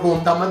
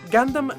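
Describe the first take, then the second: First: The first vowel is an Italian 'oo' sound. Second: The first vowel sounds like English 'gun'. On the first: The speaker calls it wrong. "non sto dicendo che non dovrete mai più chiamarlo Gundam" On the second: The speaker calls it right. "viene quindi pronunciato come le sue parole di origine nel resto del mondo"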